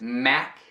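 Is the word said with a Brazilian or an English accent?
English. It is said with a native English accent. "No inglês"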